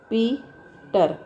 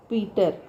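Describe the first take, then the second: First: Peter in two slow beats, पी, then टर; split into syllables. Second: Said in the usual way. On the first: Shown as a demonstration. Teacher showing the syllables in a word, Peter split in two. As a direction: break Peter after पी. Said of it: "अब इसको". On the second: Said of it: "ये normal लिखा है".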